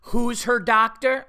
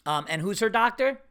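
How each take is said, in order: First: Slow, louder impatient repeat of the question; mock her testy insistence, higher and louder; upset receptionist. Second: Said in the usual way. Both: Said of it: "already she's getting, like, upset".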